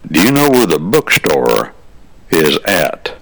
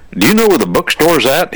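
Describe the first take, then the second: First: Said in the usual way. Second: Eager, pitched way up; high, eager question from a new student; excited kid. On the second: Retold or imitated. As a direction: blurt it out like a thrilled freshman. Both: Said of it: "He was excited".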